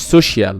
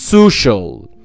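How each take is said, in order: First: An ee sound follows the sh sound. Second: No ee sound follows the sh sound. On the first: The speaker calls it wrong. "ما بتنطقهاش سوشيال" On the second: The speaker calls it right. "بنطقها social"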